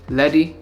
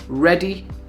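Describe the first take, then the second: First: The word begins with an L sound. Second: The word begins with an R sound. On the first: The speaker calls it wrong. "often come out as light, leady" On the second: The speaker calls it right. "Words like right, ready, real"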